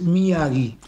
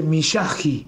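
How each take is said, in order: First: Miyagi said mi-A-gui, with a hard g; correct pronunciation. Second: Miyagi said mi-SHA-ji, Argentine sh and raspy j; read as written. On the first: Guest tells host how his surname really sounds, correct pronunciation. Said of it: "está muy bien pronunciado que es". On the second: Guest shows host how the written surname gets read, pronounced as written. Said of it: "cuando vos lo, lo ves escrito se dice". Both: Shown as a demonstration.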